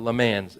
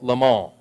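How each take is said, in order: First: It is said with an American-style pronunciation. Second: It is said with a French-style pronunciation.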